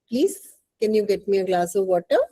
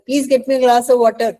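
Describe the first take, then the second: First: It is said in a polite, asking tone. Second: It is said in a rude, demanding tone.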